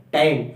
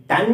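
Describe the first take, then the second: First: टैन with a gliding vowel, like "tain"; correct reading TAIN. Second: टैन as short "tann", higher; wrong reading TAN. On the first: Teacher modelling for students, टैन as gliding "tain". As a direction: glide through टैन to the n. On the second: Teacher rejecting a misreading for students, टैन as high short "tann". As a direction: pitch up टैन with a short vowel and held n. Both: Shown as a demonstration. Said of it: "टैन नहीं".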